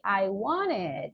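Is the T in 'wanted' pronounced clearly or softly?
softly. The T in the middle is softened. "they don't say wanted"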